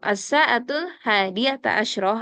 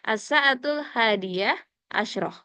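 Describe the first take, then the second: First: The middle word ends with a voweled 'ata'. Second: The middle word ends with a clipped 'ah'. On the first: "boleh dibaca fathah" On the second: "Boleh disukunin"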